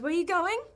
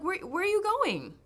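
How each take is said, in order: First: The voice rises at the end. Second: The voice falls at the end.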